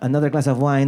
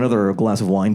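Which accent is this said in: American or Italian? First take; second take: Italian; American. First: It is said with an Italian accent. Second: It is said with an American accent. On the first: The line comes across as charming. "he's Italian and he has that accent" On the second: The line comes across as creepy. "an American guy with an, with an American accent"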